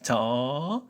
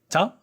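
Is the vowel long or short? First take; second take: long; short. First: The vowel is said long. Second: The vowel is said short. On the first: "with long vowels"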